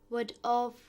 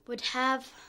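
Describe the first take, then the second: First: Said quickly, with 'have' reduced to 'of'. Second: Said slowly, with 'have' pronounced in full.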